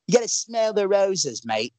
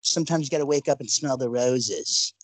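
First: Higher, put-on British accent. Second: Said in the usual way. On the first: Podcaster joking at doubting fans, mock British accent. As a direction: do a hammed-up British or Aussie accent. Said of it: "How's my British accent?".

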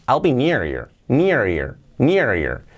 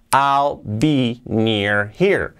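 First: "near here" run together as "near-ear"; linked, dropped H. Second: Very slow "I'll, be, near, here", H sounded; slow, words separated. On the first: Teacher showing how to join words, H dropped from "here". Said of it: "podemos saltar la H". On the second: Teacher before joining the words, slow and separated. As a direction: leave a gap after every word, keeping the H in "here". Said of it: "podemos hacerlo con esta palabra here". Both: Shown as a demonstration.

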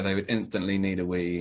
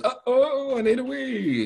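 First: Said in the usual way. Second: Much higher little voice, anxious; urgent bush baby. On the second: Acted. Bush baby in his book needing a wee, high urgent voice. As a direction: squeak it out like a small creature desperate for a toilet. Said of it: "in the jungle and says".

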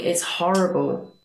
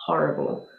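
First: Said in the usual way. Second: Breathy whispered repeat of Horrible; whispered echo. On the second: Shown as a demonstration. Repeats word, second whispered.

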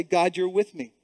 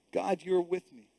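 First: Said in the usual way. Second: Softer, dropped prayer; soft murmured affirmation; quiet. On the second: Shown as a demonstration. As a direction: say it gently to yourself. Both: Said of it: "I want us to say that".

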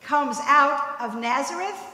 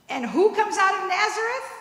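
First: Slow, scornful quote of the townsfolk; slow mocking quote, townsfolk looking down on Nazareth; quoted scorn. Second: Higher, rising challenge on out; preacher turning the saying on its head; rhetorical question. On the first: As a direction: say it like a dismissive proverb. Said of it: "and I quote". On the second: Shown as a demonstration. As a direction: pitch it up as a triumphant question.

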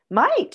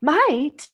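First: Might rising high and louder, teasing; stressed Might. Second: Might falling from high, louder; stressed Might. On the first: Wife echoing him with a raised Might. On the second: Wife answering her own Might with a fall. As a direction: land Might firmly, falling. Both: A narrator's reading. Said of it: "she said".

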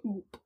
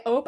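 First: "oop" with an oo sound, dropped softly. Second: "ope" with a long O, as in hope. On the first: Showing their own word, a soft "oop" with a U. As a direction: say "oop" softly, vowel as in hoop. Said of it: "Like, with a U". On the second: Showing the word they don't say, "ope" with a long O. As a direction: say "ope" to rhyme with soap. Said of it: "See, I don't say". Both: Shown as a demonstration.

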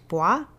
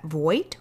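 First: Voight said as a French vwa; French pronunciation. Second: Said in the usual way. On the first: Shown as a demonstration. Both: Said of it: "should be spoken French".

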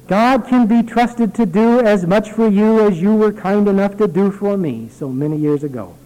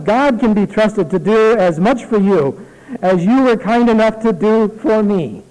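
First: Said in the usual way. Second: Higher, louder, savored repeat of the line; emphatic quote. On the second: Shown as a demonstration. Pastor repeating the letter's key line to the congregation, emphatic. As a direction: lean into it as your favorite sentence. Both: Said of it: "I like that one sentence so much".

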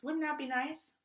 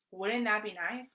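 First: Higher, dreamy wish; wistful wishing voice; wistful longing. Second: Said in the usual way. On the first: Shown as a demonstration. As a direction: sigh it out like a daydream. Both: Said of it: "That's a desire".

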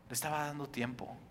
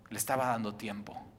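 First: Hushed repeat. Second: Soft emphasis. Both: Shown as a demonstration.

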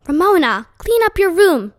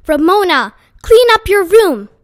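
First: A firm motherly order, slightly higher. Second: Much louder and higher, a mother yelling; raised voice. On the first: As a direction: order her to clean up, firmly but not yet shouting. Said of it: "she ordered". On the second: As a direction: repeat the order at full volume, out of patience. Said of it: "Missus Quimby raised her voice". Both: A narrator's reading.

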